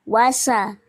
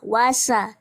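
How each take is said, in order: First: The consonant after 'wa' is an 's' sound. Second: The same.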